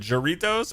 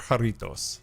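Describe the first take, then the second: First: The word begins with a J sound. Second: The word begins with an H sound.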